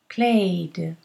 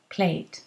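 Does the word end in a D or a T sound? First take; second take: D; T. First: The word ends with a voiced D sound. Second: The word ends with a voiceless T sound. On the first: "You need to pronounce a D" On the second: "But you can say played"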